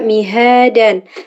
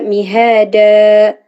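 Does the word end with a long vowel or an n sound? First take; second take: n sound; long vowel. First: The word ends with an n sound. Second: The word ends with a long open vowel. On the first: The reader continues without stopping. "Ketika wasol dibaca" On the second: The reader stops on this word. "ketika wakof dibaca"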